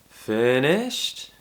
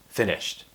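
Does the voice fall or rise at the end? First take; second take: rise; fall. First: The voice rises at the end. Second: The voice falls at the end. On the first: The speaker is asking if others have finished. The speaker calls it right. "this kind of rising intonation, it shows that we're asking a question" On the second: The speaker is stating they have finished. The speaker calls it wrong. "that sounds like I'm just telling my listener that I have finished"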